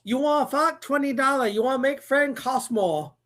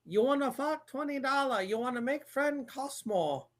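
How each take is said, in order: First: Put-on higher, louder movie-quote Asian accent; mock Asian accent. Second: Softer mock Asian movie-quote accent. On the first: Host quoting a movie for a guessing game, loud mock Asian accent. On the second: Host repeating a movie quote for guessers, softer mock Asian accent.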